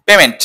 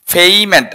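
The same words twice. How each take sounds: First: পেমেন্ট with a short plain e, "PE-ment"; wrong pronunciation. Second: পেমেন্ট with a drawn-out "ay", "PAY-ment"; correct pronunciation. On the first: Teacher shows students the usual error, mispronounced. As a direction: say পেমেন্ট without any glide. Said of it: "ভুল উচ্চারণ কি?". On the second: Teacher models the word for students to copy, corrected pronunciation. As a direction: glide through "pei" in পেমেন্ট, then fall. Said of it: "এটার correct pronunciation হচ্ছে". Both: Shown as a demonstration.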